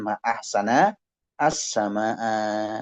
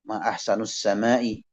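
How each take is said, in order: First: The word ahsan ends in an a vowel. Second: The word ahsan ends in a u vowel. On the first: It exclaims how beautiful the sky is. The speaker calls it right. "nunnya harokatnya fathah, hamzahnya juga fat, fathah" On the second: It asks what is most beautiful about the sky. The speaker calls it wrong. "bukan pakai nun yang harokatnya dhammah"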